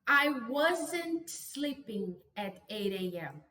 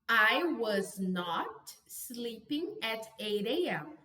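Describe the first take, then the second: First: Was and not are contracted into one word. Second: Was and not are said as two full words. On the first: "Existe uma contração e eu vou ensinar a pronúncia" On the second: "você vai colocar o not depois de was e were"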